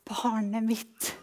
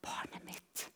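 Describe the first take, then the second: First: Slow, gentle voicing of God; hushed, tender reply; God's quiet answer. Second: Barely audible tender whisper; very soft, breath-only voicing of God; God's whispered answer. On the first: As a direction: answer softly and unhurriedly, as to your child. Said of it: "når jeg blir stille, så svarer han". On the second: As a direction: whisper it as God's patient reply. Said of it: "så sier han".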